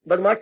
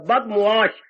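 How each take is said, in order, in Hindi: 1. बीच का अक्षर सीधा 'maa' की ध्वनि है। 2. 'sh' से पहले बीच का अक्षर 'mu-aa' की तरह फिसलता है। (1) "बदमाश शब्द नहीं होता" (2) "बद मीम और एन दे के आगे छीन है"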